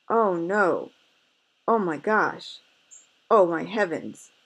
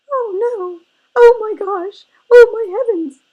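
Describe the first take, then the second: First: Lightly voiced little bear crying out; mildly alarmed bear cub; wee little voice. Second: Very high, very loud tiny bear cub cry; piercing, high-pitched little cub wailing in alarm; wee little voice. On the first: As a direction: cry out in mild alarm, louder, only a hint of the baby bear. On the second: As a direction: squeal it out as a panicked baby bear. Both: A narrator's reading. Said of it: "he cried in his wee little voice".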